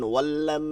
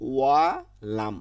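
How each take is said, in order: First: The two words merge with a doubled l. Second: The two words are kept apart with single l. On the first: The speaker calls it wrong. "এই ওয়াল্লাম এটা ভুল হবে" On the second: The speaker calls it right. "আলাদা আলাদা"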